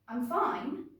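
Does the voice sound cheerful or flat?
flat. The voice sounds flat, not cheerful.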